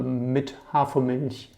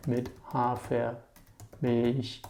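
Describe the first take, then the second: First: Said in the usual way. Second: "Mit Hafermilch" very slow, softer; slowed-down repeat. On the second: Shown as a demonstration. Teacher repeats the coffee order for learners, very slowly.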